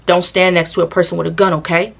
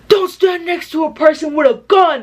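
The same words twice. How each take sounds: First: Level, low-key telling-off as he really said it; calm imitated warning, no theatrics; matter-of-fact warning. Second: High-pitched mock scolding; hammed-up telling-off, pitched way up; exaggerated scolding impression. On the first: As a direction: state it plainly and firmly, checking at the end. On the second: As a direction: overact his warning in a high voice. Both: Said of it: "he's literally saying it like this".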